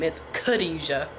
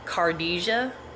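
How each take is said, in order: First: The name is said unlike its spelling. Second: The name is read the way it looks. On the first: The speaker calls it right. "No, that's not how you say my name" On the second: The speaker calls it wrong. "if you just read her name the way it looked, it would be uh"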